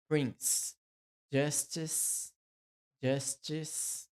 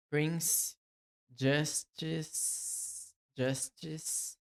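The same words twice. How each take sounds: The two takes are said the same way.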